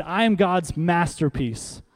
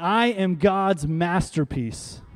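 First: Said in the usual way. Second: "I am God's masterpiece" drawn out slowly and firmly; slow, emphatic "I am God's masterpiece", every word weighted; said like you mean it. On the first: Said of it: "Say that after me". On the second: Shown as a demonstration. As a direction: declare "I am God's masterpiece" with conviction, stretching each word. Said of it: "Say it like you mean it".

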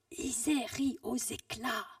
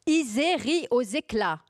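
First: Slow, higher, far-off echo; like a shout resounding in an empty room; drawn-out distant repeat of a cry. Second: Loud, high, slow proclamation; raised voice, each word drawn out; very loud, almost yelling. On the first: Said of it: "Alors ça fait comme un écho". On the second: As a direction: declaim it out loud, nearly shouting. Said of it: "Je dis très fort, presque en hurlant". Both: Acted.

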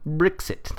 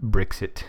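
First: Higher-pitched mock English accent on Brexit. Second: Said in the usual way. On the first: Shown as a demonstration. Host playing with the word Brexit in a mock English accent. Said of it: "That's my, uh, English accent".

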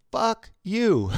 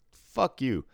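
First: High, loud, drawn-out mock disbelief; playful cursing. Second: Higher, falling mock disbelief; playful cursing. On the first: Imitating customer floored by the same street, loud playful incredulity. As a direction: punch it up high, only playing. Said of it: "in a nice way. Like, he's just playing". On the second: Imitating customer amazed by a shared hometown, playful disbelief. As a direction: toss it out as friendly, imitated disbelief. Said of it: "in a nice way".

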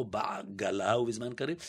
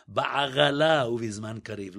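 First: Said in the usual way. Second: Put-on old Sephardic reading of בעגלה ובזמן קריב; Sephardic guttural ayin. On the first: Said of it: "לא". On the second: Shown as a demonstration. Imitating original Sephardim reading the prayer, throaty letters. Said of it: "הספרדים המקוריים אומרים".

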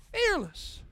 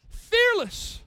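First: Said in the usual way. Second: Loud exclamation. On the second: Acted. Exclaims about fearless son.

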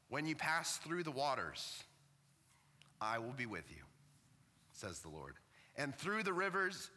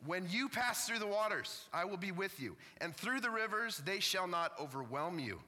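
First: Catching with emotion between phrases; choked up. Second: Pitched-up, resolute declaration to the congregation; emphatic proclamation. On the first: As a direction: read the verse haltingly, moved and choking up. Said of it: "I'm getting choked up about this". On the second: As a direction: proclaim the verse with renewed force. Restarts the verse after choking up. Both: Real, not acted.

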